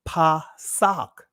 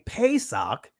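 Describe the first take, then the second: First: The first vowel is an open 'ah' sound. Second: The first vowel is a long 'ay' sound. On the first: The speaker calls it right. "it's actually Pasak" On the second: The speaker calls it wrong. "instead of saying Pesach"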